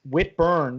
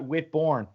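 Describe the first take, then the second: First: The second syllable sounds like 'burn'. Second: The second syllable sounds like 'born'. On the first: The speaker calls it right. "it's Whitburn" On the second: The speaker calls it wrong. "not Whitborn"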